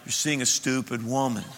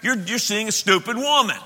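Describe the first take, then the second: First: It is said in a soft, polite tone. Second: It is said in a blunt, harsh tone.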